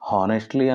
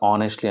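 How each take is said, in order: First: The word begins with an audible h sound. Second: The word begins with a vowel, no h. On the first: "హానెస్ట్లీ అనొచ్చు" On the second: "హెచ్ సైలెంట్తో"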